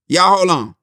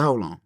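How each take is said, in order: First: Loud, raised call to halt. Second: Said in the usual way. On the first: Retold or imitated. Actress halting the crew, calling out. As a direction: pitch it up and out to a group.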